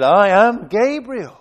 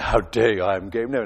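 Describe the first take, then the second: First: Said in the usual way. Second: Low, affronted "How dare you?"; indignant angel. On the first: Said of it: "we didn't do that". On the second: Retold or imitated. Preacher imagining Gabriel rebuking Zechariah, low and indignant. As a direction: drop the voice low and stand on your dignity. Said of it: "imagine him standing and say".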